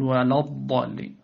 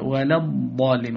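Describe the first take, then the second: First: "ولا الضالين" with thick, dark l; wrongly heavy lam. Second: "ولا الضالين" with thin l and front vowel before ض; light lam. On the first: (تفخيم لام "ولا") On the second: (ترقيق لام "ولا") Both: Shown as a demonstration. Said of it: "ولا تقل".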